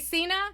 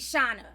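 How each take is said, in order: First: The name starts with an S sound. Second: The name starts with an SH sound. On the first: The speaker calls it wrong. "It took me so much not to say Cena" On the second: The speaker calls it right. "it gotta be Shauna. Yes, for the correct pronunciation"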